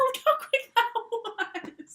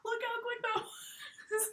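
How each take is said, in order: First: Excited. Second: Slow unvoiced whisper of "Look how quick that was". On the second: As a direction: whisper it slowly. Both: Shown as a demonstration.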